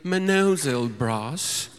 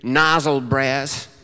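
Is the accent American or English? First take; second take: English; American. First: It is said with an English accent. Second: It is said with an American accent.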